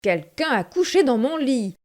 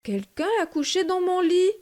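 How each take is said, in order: First: It is growled in Papa Bear's deep voice. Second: It is said in Mama Bear's medium voice.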